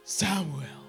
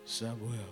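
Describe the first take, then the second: First: The name is said in a lighter voice. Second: The name is said in a deeper voice.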